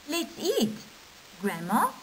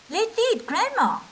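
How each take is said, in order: First: There is a pause before 'Grandma'. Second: It runs on without a pause before 'Grandma'. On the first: Grandma is invited to join the meal. "with punctuation it becomes" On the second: Grandma is the food. "we're physically going to cut Grandma"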